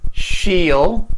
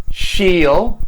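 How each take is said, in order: First: Will is shortened and joined to the pronoun. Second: Will is shortened and joined to the pronoun.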